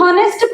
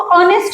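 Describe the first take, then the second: First: The word begins with an h sound. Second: The word begins directly with a vowel. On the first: The speaker calls it wrong. "हॉनेस्ट pronounce नहीं करते हैं" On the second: The speaker calls it right. "हम इसको ऑनेस्ट बोलेंगे"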